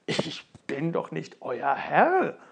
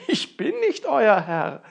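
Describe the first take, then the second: First: Langsam und verwundert, „Herr“ gedehnt; ungläubig abwehrend, langsam; verdutzt. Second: „nicht“ laut und höher betont, langsam; nachdrücklich wiederholt mit Nachdruck auf „nicht“; Betonung auf nicht. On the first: (Ofenmichel antwortet den Zwergen verdutzt, langsam) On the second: (nachdrücklich, lauter, „nicht“ hervorgehoben) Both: Acted. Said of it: "ganz verdutzt und antwortete".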